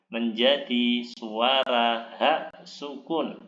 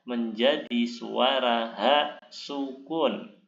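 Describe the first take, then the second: The two takes are said the same way.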